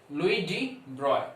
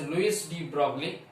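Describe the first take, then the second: First: The name is said with French sounds. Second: The name is said with Indian English sounds. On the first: "the actual French pronunciation of this guy is" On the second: "in India you call it as"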